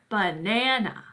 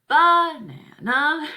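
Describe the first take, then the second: First: The stress is on the middle syllable. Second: The stress is not on the middle syllable. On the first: The speaker calls it right. "we accent the middle syllable there" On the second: The speaker calls it wrong. "We don't go banana, right? That doesn't sound normal"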